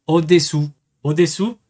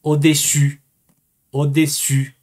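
First: Au-dessous ending in French "oo"; au-dessous as a deliberate French demo ending "oo"; au-dessous pronunciation. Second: Au-dessus ending in fronted French u; au-dessus as a deliberate French demo ending "ü"; au-dessus pronunciation. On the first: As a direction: say au-dessous carefully, last vowel back and rounded. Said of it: "es debajo de". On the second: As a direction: say au-dessus carefully, last vowel tight and fronted. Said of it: "un cambio de U". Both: Shown as a demonstration.

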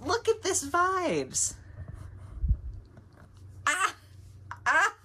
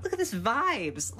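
First: Much higher, slow cooing squeal; slow, high gushing coo; squealing delight. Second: Said in the usual way. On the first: Real, not acted. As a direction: squeal it like something adorable. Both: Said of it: "repeated admiring exclamation".

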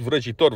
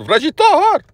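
First: Said in the usual way. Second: „Vrăjitor!” belted high and loud, the final syllable stretched to „toar”; mock-belt „Vrăjitor!” with a drawn-out „-toar” ending; mocking his delivery. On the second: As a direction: ham up „Vrăjitor!” like an overdone metal singer, pitched up and loud. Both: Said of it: "chiar așa îți place să zici".

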